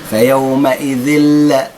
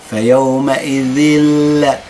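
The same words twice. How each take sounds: No difference in how they are said.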